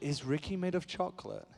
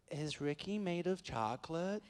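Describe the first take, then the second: First: Softly voiced English little girl; imitating a child's question in an English accent. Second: Put-on slow, soft Valley girl child; imitating a little Californian Valley girl; Valley girl accent. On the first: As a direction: ask it as a small English child. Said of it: "'cause she's English". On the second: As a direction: ask it as a whispering Valley girl. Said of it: "I don't know why she's from the Valley".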